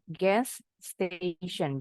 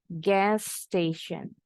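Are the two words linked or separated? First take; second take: separated; linked. First: The two words are split with two s sounds. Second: The two words join with one s sound. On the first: The speaker calls it wrong. "Jangan bilangnya gas station. Jadi dua kata" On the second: The speaker calls it right. "Disambung, anggap aja ini. S-nya cuma satu"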